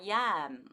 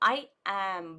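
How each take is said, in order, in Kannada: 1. ಪದಗಳ ನಡುವೆ 'ಯ' ಸೌಂಡ್ ಸೇರಿಸಿ ಜೋಡಿಸಲಾಗುತ್ತದೆ. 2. ಎರಡು ಪದಗಳನ್ನು ಬೇರೆ ಬೇರೆಯಾಗಿ, ಮಧ್ಯೆ ವಿರಾಮದೊಂದಿಗೆ ಹೇಳುತ್ತಾರೆ. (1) "ಸೇರುವಾಗ" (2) "ಬಿಡಿಸಿ ಬಿಡಿಸಿ ಹೇಳಲ್ಲ"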